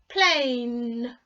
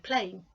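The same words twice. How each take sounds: First: The word is said slowly, stretching the final n. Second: The word is said quickly, with a clipped ending. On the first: "if you really listen to the ending of that word, it's N" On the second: "We say it quickly"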